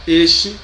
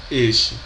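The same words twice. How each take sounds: First: Este with a rising pitch; este, rising, sounded the same as the other. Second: Este with a falling pitch; este, falling, sounded like the first; same sound. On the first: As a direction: say este as EST-chee. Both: Shown as a demonstration. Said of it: "têm a mesma pronúncia".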